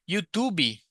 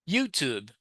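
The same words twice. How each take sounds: First: The final B is strong and fully released. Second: The final B is very light and subtle. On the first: The speaker calls it wrong. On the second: The speaker calls it right. "So just a, a little B"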